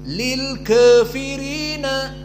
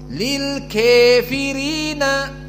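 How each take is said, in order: First: The vowel after k leans slightly toward e. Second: The vowel after k sounds clearly like e. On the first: "dengan taklil" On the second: "dengan imalah al-kubra"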